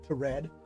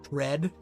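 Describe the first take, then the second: First: The T is said as its own separate syllable. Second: The T blends into one syllable with the rest. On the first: The speaker calls it right. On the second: The speaker calls it wrong.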